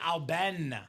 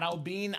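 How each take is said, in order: First: The second syllable sounds like 'ben'. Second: The second syllable sounds like 'bine'. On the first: The speaker calls it right. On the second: The speaker calls it wrong. "not Albine"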